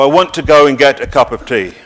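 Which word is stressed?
none. No word is given special stress.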